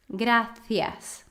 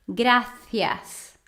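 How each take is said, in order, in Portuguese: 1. O c é dito com a língua entre os dentes. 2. O c é dito com a língua entre os dentes.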